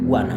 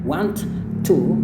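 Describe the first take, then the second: First: The t sounds are dropped, ending in soft a. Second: Both t sounds are clearly pronounced. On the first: "akan berubah menjadi bunyi a yang halus" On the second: "terlalu ribet kayak want to, jadi kayak bunyi T-nya double"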